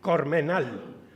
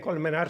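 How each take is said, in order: First: It has an R first and an L last. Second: It has an L first and an R last. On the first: "sino cormenal" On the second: "no dicen colmenar"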